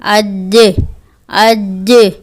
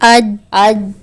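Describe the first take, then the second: First: The final consonant ends with a short echoing bounce. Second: The final consonant stops abruptly with no echo. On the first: The letter is fully pronounced. The speaker calls it right. "अब हम इसमें सिफ्ते कलकला को लाएंगे" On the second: The letter is not fully pronounced. The speaker calls it wrong. "कलकला नहीं कर रहे ... यहाँ आवाज़ फौरन बंद हो गई"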